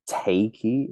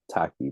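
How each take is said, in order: First: The first vowel rhymes with 'take'. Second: The first vowel rhymes with 'tack'. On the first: This is how some people, like Americans, say the name. The speaker calls it wrong. "If you're American, I understand where it's like takey" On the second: This is how the artist says his own name. The speaker calls it right. "It's like no, like it's just tacky, bro"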